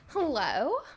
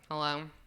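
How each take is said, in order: First: The greeting sounds warm and friendly. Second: The greeting sounds curt and annoyed.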